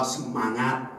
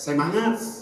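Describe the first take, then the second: First: It is said in a Javanese accent. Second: It is said in a Flores accent. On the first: "orang Jawa semangat" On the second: "orang Flores semangat"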